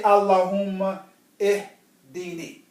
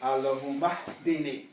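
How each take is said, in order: First: The 'i' of ihdini is pronounced separately. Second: The 'i' is dropped and the words run together. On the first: The speaker calls it wrong. "for training purposes for t- we say Allahumma ihdini" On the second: The speaker calls it right. "But the correct way of saying it"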